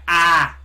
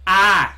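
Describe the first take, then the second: First: "I" said as a flat open "ah" with no glide; Southern "ah" for I. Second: Said in the usual way. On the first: Shown as a demonstration. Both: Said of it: "they write I as A H".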